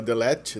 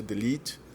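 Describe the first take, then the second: First: Delete said with an open e, like "delét"; the common mistake: delete with an open e; teacher showing the wrong delete, open e vowel. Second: Delete said with a long ee, "delit"; the right way: delete ending in a long ee; teacher showing the right delete, long ee vowel; correct delete. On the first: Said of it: "é delete". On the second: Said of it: "não é delete". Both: Shown as a demonstration.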